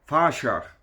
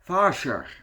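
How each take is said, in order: First: The word is said with a 'rsj' sound. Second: The same.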